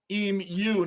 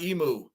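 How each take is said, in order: First: "Emu" said EEM-you, with a y glide; corrected pronunciation. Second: "Emu" said EE-moo, with no y glide; rejected pronunciation. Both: Shown as a demonstration. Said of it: "Emu is pronounced E-, Emu, not Emu".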